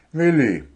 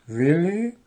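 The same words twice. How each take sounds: First: Willi higher, then falling; confident announcement. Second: Willi high and rising; doubtful question. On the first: Dwarf names the secret weapon, Willi said assuredly, falling. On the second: Goblin doubts the sleeping owl, Willi asked with a rising tune. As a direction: question WILLI with a long upward glide. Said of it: "Wuschel sah misstrauisch zu dem schlafenden". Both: A narrator's reading.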